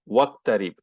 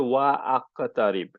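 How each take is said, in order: First: The vowel after wa is dropped. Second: The vowel after wa is kept. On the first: The speaker calls it right. "the alif got dissolved" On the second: The speaker calls it wrong. "you don't say wa aqtarib"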